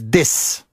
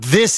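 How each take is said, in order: First: The word begins with a hard d sound. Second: The word begins with a soft th sound. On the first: "they go D" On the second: "It's not this"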